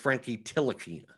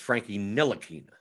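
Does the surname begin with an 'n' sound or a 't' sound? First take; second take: t sound; n sound. First: The surname begins with a 't' sound. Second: The surname begins with an 'n' sound. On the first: The speaker calls it wrong. "I always thought it was a silent N" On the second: The speaker calls it right. "Jonathan Laureano says it's a silent T"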